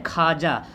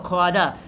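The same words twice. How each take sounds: First: खाजा as "khaaja", no "w"; silent w. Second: ख्वाजा with a voiced "w", "kho-wa-ja"; read as written. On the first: Teacher giving the real reading, खाजा with silent व. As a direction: drop the व, say खाजा. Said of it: "लेकिन पढ़ते हैं क्या?". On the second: Teacher repeating the spelling, ख्वाजा with audible व. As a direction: let the व in ख्वाजा be heard. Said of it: "क्या लिखा हुआ?". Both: Shown as a demonstration.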